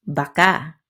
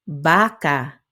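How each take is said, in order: First: "baka" with short BA, stressed KA; stress on last syllable. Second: "baka" with a drawn-out, stressed BA; stress on first syllable. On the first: Teacher repeating the example for learners, "baka" stressed on last syllable. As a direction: hit the final syllable of "baka". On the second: Teacher repeating the example for learners, "baka" stressed on first syllable. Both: Shown as a demonstration. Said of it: "just because of the stress".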